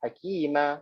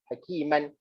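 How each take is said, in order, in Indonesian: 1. Kata itu berakhir dengan bunyi h. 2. Kata itu berakhir dengan bunyi n. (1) "Kita akan berhenti dengan hakimah" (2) "kalau kita sambung, dia akan bunyi hakiman"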